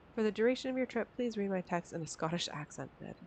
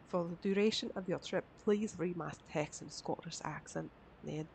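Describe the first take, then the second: First: It is read in the speaker's ordinary accent. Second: It is read in an attempted Scottish accent.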